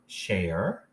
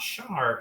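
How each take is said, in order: First: The vowel is a long A sound. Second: The vowel is an AR sound. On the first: The speaker calls it right. "It's still going to be long A with share" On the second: The speaker calls it wrong. "it is not shar"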